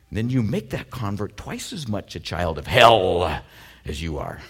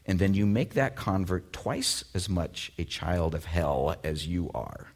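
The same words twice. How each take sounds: First: The word hell is strongly emphasized. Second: The word hell gets no special emphasis.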